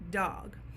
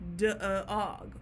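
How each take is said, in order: First: The d runs straight into the vowel. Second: An extra uh vowel follows the d. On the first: The speaker calls it right. "but we say dog" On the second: The speaker calls it wrong. "then we would pronounce the word dog, d-uh-og"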